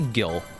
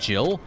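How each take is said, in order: First: The word begins with a hard g sound. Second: The word begins with a j sound. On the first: This is the speaker's own preferred pronunciation. "I say Gil" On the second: This is the official pronunciation. "the canon pronunciation is Jill"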